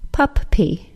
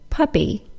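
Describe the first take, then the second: First: The middle P is pronounced twice, split apart. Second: The middle P is pronounced as one sound. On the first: The speaker calls it wrong. "not pup-pee" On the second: The speaker calls it right. "the middle two P's of the word puppy are said as just one P sound"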